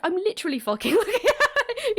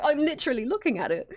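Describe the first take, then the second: First: High-pitched quote breaking into laughter; mock insistence dissolving into a laugh; retold exasperation, laughing. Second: Higher-pitched imitation of someone insisting; lightly mock exasperation, stressing "looking"; retold exasperated insistence. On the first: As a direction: crack up while imitating an exasperated insistence. Breaks up laughing while quoting Chester. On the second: Corrected quote of Chester's exasperated insistence.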